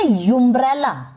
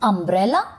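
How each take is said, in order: First: The word begins with a 'you' sound. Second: The word begins with a plain 'uh' vowel. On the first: The speaker calls it wrong. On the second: The speaker calls it right.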